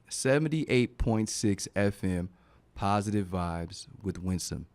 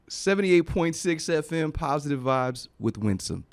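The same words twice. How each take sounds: First: It is said slowly. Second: It is said fast.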